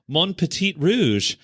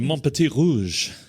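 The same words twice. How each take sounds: First: It is said with an anglicized, non-French pronunciation. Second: It is said with a more French-sounding pronunciation. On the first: The speaker calls it wrong. "she's saying it wrong" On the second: The speaker calls it right. "I can say it better than you"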